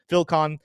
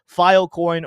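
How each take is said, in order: First: The word is squashed into 'Phil-con'. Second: The word is said with a full 'coin' ending.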